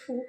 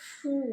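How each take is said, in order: First: The vowel is short and plain. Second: The vowel is long and stressed. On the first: "হর্ষকারের উচ্চারণ simple হবে" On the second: "একটু জোর দিয়ে বা একটু দীর্ঘক্ষণ ধরে"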